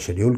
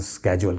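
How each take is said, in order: First: It is said the British way, with 'sh'. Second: It is said the American way, with 'sk'.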